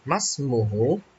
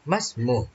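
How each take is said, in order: First: The word ends with a full final vowel. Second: The word ends on a consonant, vowel dropped.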